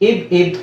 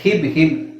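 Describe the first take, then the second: First: The syllable begins directly with the vowel. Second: The syllable begins with an h sound. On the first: The speaker calls it right. "ಹ ಹ ಹಿ ಹಿ ಬರಬಾರ್ದು" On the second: The speaker calls it wrong. "ನೀವು ಹೇಳೋ ಉಚ್ಚಾರಣೆ ಹಕಾರ ಬರ್ತಾ ಇದೆ"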